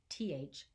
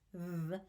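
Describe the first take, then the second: First: The th sound is voiceless, without vocal buzz. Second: The th sound is voiced, with vocal buzz.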